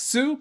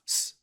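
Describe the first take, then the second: First: The syllable ends with a clear u vowel. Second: The syllable is only an s sound, no vowel. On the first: "Normally that's pronounced su" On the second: "here it's just going to be pronounced s"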